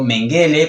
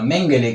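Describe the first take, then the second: First: The name is pronounced with Spanish sounds. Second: The name is pronounced with German sounds. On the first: "en un principio Mengele" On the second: "que es su verdadera pronunciación en alemán"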